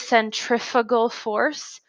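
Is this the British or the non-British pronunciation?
non-British. It uses the speaker's own non-British pronunciation. "but we usually say"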